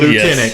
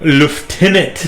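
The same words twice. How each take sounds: First: It is pronounced without an F, lootenant. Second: It is pronounced with an F sound, leftenant. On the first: The speaker calls it right. "There's no F in that word" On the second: The speaker calls it wrong. "the stupid British way to say lieutenant"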